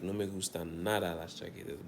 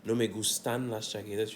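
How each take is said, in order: First: Nada given the main weight of the sentence; stress on nada. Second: Said in the usual way. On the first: Shown as a demonstration. Teacher shows how nada adds emphasis, stressed nada. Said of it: "nada is like you're putting emphasis on no". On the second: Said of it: "So it's not just".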